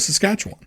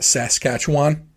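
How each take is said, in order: First: The syllables are rolled quickly together. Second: Every letter and syllable is pronounced distinctly. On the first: The speaker calls it right. "that is the proper way to say Saskatchewan" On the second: The speaker calls it wrong. "say that all the letters"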